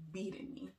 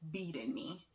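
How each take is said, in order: Both takes have the same delivery.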